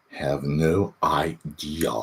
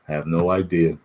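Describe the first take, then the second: First: Slow, drawn, trailing repeat. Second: Said in the usual way. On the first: Shown as a demonstration. Streamer repeating to chat, slowed down. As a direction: let it drag out slowly. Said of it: "repeated slowed". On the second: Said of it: "repeated line".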